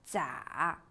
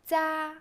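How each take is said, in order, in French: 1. Le ton descend bas puis remonte. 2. Le ton reste haut et plat.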